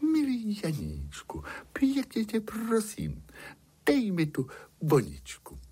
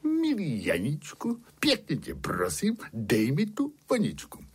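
First: High, sugary princess plea; honeyed storybook princess begging; sweetest princess voice. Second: Lightly voiced coaxing, high only on the opening words; a touch of sweet pleading from the storyteller's shepherd; shepherd demonstrating a plea. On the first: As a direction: plead as sweetly as you can, high-pitched. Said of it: "Princezna řekla tím nejsladším hlasem". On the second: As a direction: show exactly how to ask, phrase by phrase. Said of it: "musí o ni takto poprosit". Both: A narrator's reading.

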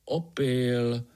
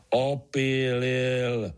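First: Short, matter-of-fact correction "Opil"; correcting. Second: "Opílil" stretched very slowly, insisting; mild roar. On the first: Pája corrects Artur's word, correcting tone. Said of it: "opravil ho Pája". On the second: Artur insists on his word to Pája, mock roaring. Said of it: "zařval Artur". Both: A narrator's reading.

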